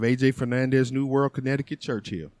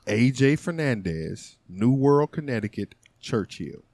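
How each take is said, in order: First: It is said fast. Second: It is said slowly.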